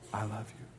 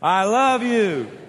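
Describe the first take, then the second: First: It is said softly in a whisper. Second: It is said loudly with strong passion. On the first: "Now say it in a whisper"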